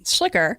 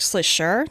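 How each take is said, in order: First: The name is said the family's American way. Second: The name is said the German way. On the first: The speaker calls it wrong. "So we would say Schlicker" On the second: The speaker calls it right. "in German, it's actually more like Schlischer"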